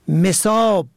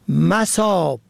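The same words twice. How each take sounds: First: The first vowel is i. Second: The first vowel is a. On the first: Watered, filled with water. "به کسر اول" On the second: Places or locations. "به فتح اول"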